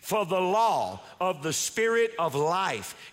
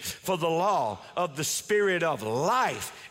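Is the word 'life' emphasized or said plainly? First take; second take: Plain; Emphasized. First: The word life gets no special emphasis. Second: The word life is given strong emphasis.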